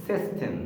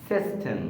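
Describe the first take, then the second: Both takes have the same delivery.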